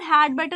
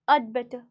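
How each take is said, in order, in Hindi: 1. 'had' शब्द पूरा बोला जाता है। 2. 'had' शब्द छोटा होकर 'ud' जैसा बोला जाता है। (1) "जब हम हैड बेटर लिखते हैं" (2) "इसे हम बोलते हैं अड"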